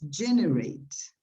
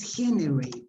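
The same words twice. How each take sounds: First: It begins with an English 'dj' sound. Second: It begins with a throaty Spanish 'j' sound. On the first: The speaker calls it right. "es generate" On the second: The speaker calls it wrong. "El sonido J en inglés no existe. No es generate"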